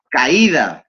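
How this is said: The d between the vowels is pronounced.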